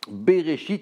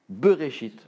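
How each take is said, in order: First: The first vowel is an open 'eh' sound. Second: The first vowel is a short reduced schwa. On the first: The speaker calls it wrong. "au lieu de dire" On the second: The speaker calls it right. "il faut dire"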